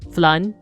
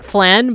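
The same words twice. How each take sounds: First: It is said with a Filipino accent. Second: It is said with an American accent. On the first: "the Filipino way would be like flan" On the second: "that's like the Americanized way to say it"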